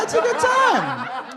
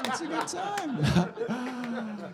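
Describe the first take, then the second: First: High and very slow, hammed-up come-on; mock seductive. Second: Soft, extremely slow, laughing seductive drawl; mock sultry murmur. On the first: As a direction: stretch it out like a cheesy flirt. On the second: Comic repeats his flirty line to the crowd, soft slow mock sultry. Second take, dropped low.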